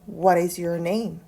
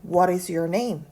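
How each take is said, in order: Both takes have the same delivery.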